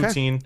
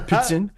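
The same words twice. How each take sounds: First: It is said with a plain English accent. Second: It is said with an exaggerated French accent.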